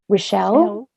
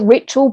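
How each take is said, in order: First: The name is said to rhyme with Michelle. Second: The name is said to rhyme with Mitchell. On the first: The speaker calls it wrong. "Lots of people love to say Rochelle" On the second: The speaker calls it right. "Does it rhyme with Mitchell or Michelle? And she said Mitchell"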